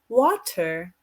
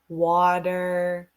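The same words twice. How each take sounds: First: It has a British accent with a clear T. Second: It has a relaxed American accent with a soft T. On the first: "the British accent is water, mountain, like they put the T" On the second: "American accent, like um, we're more relaxed. We can say water"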